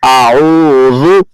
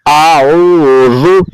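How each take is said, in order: No difference in how they are said.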